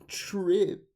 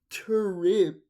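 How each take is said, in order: First: The word begins with a ch sound. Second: The word begins with a plain t sound. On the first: "I say trip with a C H" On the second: "I don't say tur trip"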